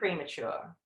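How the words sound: The word is pronounced the American way. This is how the listeners' group says it. "But you say premature"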